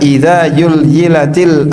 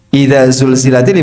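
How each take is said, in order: First: The second word begins with a y sound. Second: The second word begins with a z sound. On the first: The speaker calls it wrong. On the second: The speaker calls it right.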